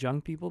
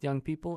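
First: The first word sounds like 'jung'. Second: The first word sounds like 'young'. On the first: The speaker calls it wrong. "and not Jung People" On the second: The speaker calls it right. "is pronounced Young People"

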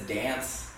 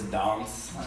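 First: The word is said with a plain American accent. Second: The word is said with a British accent.

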